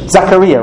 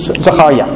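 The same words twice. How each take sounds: First: The name has an English pronunciation. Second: The name has a Hebrew pronunciation. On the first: The speaker calls it wrong. "you say it differently in English" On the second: The speaker calls it right. "I think that I'm saying in Hebrew"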